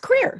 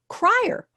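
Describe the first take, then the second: First: The vowel sounds like 'ee', as in creek. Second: The vowel sounds like 'eye', as in crier. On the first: The speaker calls it right. "but it's Creer" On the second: The speaker calls it wrong. "people usually say Crier for my last name"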